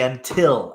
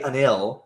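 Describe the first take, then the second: First: The middle t sound is pronounced. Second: The middle t sound is dropped. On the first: The speaker calls it right. "You say until" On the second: The speaker calls it wrong. "you don't say unil"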